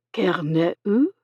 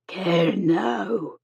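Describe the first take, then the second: First: Unsure echo of "Care ne où", rising at the end; "Care ne où" as a halting question, second word blurred; imperfect echo. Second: "Care now" with a long, stressed "now"; emphasis on final syllable. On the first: Shipwrecked man echoes the Cornish word, "Care ne où", uncertainly. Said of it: "He imperfectly echoed the Cornish word". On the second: Nurse corrects the man's "Care now", stressing the final "now". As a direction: say "Care now" softly, leaning on "now". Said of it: "emphasizing the final syllable". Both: A narrator's reading.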